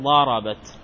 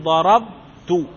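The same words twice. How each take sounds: First: ضربت as darabat, with an a after the b; open ba before ta. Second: ضربت split slowly as darab-tu, b unvoweled; still ba before ta. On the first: Teacher showing the feminine ta, ضربت said darabat. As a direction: say ضربت in one run, closing on -bat. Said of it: "فيبقى على بنائه على الفتح". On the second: Teacher showing the still ba, ضربت drawn out as darab...tu. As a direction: say ضربت very slowly, halting on the b, then -tu. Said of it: "الباء هنا ماذا عليه؟ السكون". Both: Shown as a demonstration.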